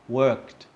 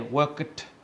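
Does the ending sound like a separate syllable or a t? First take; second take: t sound; separate syllable. First: The ending sounds like a single t sound. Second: The ending is said as a separate syllable. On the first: The speaker calls it right. "they actually sound a little bit like a t" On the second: The speaker calls it wrong. "we don't say worked"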